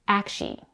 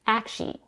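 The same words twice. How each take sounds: First: The word is said with two syllables. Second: The word is said with two syllables.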